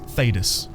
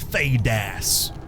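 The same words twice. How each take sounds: First: The last syllable is stressed lightly. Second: The last syllable is stressed heavily. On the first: The speaker calls it right. "a bit less emphasis on the ass" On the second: The speaker calls it wrong. "instead of Thedas"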